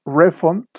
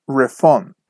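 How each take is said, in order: First: REfund, first syllable stressed; noun stress. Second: ReFUND, strong second syllable, falling; verb stress. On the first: Teacher shows students the noun form, stress on RE in "Refund". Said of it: "the stress is on the first syllable". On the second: Teacher shows students the verb form, stress on FUND in "refund". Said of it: "the stress is on the second syllable". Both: Shown as a demonstration.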